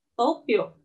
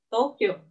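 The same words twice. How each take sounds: The two takes are said the same way.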